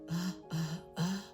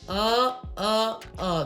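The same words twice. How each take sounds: First: The voice is breathy and airy. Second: The voice is firm and balanced.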